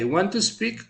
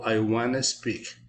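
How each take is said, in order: First: The words want to are said in full. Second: The words want to blend into wanna. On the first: "you say I want to speak" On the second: "it has a contraction"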